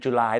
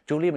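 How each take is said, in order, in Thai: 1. ฟังเหมือนชื่อเดือน July 2. ฟังเหมือนชื่อผู้หญิง Julie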